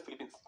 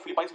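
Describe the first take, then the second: First: Said in the usual way. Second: फिलीपाइंस with "pines" as the last syllable; alternative pronunciation. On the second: Shown as a demonstration. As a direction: say फिलीपाइंस, ending like English "pines", not "peens". (फिलीपाइंस, आख़िर में "पींस" की जगह "पाइंस" का उच्चारण) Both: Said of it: "इसको कई लोग फिलीपाइंस भी कहते हैं".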